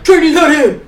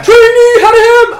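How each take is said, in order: First: Put-on drawled Louisiana accent on Trainee Hadney; a drill instructor in a thick Louisiana accent. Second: Slow, high, loud Louisiana bark of Trainee Hadney; Louisiana accent, louder. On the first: Instructor calling her name, Louisiana accent. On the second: Retold or imitated. Instructor yelling her name again, Louisiana accent. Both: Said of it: "He had this thick ax-, like, accent".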